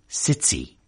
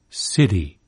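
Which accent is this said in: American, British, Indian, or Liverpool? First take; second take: Liverpool; American. First: The t is affricated with a hissing release. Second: The t is voiced and tapped like a quick d. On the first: "affricated, to use the jargon, in Liverpool city" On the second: "voiced and even tapped, as in American city"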